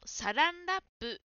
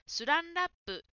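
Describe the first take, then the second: First: The first syllable is said as sa. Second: The first syllable is said as su. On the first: The speaker calls it right. "サランラップのサがスに聞こえて" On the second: The speaker calls it wrong. "サがスに聞こえてスランラップと言"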